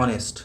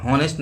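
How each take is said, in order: First: ऑनेस्ट with a silent h, starting on the open o; correct pronunciation. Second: हॉनेस्ट with a breathy h at the start; wrong pronunciation. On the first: Teacher showing students the right way to say ऑनेस्ट, silent h. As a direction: say ऑनेस्ट as "onest", no h sound at the start. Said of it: "इसका pronunciation ऑनेस्ट होता है". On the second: Teacher showing students the wrong way to say हॉनेस्ट, with h. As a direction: sound the h in हॉनेस्ट, like "honest" with h. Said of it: "हॉनेस्ट नहीं होता है". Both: Shown as a demonstration.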